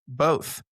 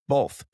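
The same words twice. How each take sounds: First: The word is said without an L sound. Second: The word is said with an added L sound. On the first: This is how people in Georgia say it. "They say it how it's spelled" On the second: This is how people from the north say it. "people from the north typically add an L in there"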